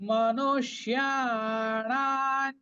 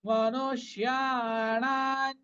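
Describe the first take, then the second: Both takes have the same delivery.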